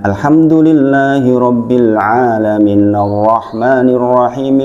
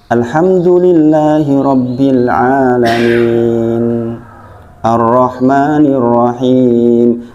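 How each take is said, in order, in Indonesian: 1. Ayat-ayatnya bersambung tanpa jeda. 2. Ada jeda di antara ayat-ayatnya. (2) "sebaiknya diputus-putus"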